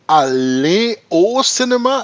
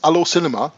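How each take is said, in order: First: It is said carefully, each word distinct. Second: It is said fast, words run together.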